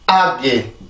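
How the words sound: It is said with a strong, tense stress. "영어입니다"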